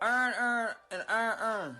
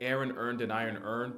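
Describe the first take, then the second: First: It is said in a Baltimore accent. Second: It is said in a general American accent.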